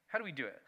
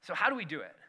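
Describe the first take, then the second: First: Repeats the question lower and softer; a hushed echo, lower and softer, letting it sink in; quiet echo. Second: Said in the usual way. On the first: Shown as a demonstration. Preacher echoing his own question, lower and softer.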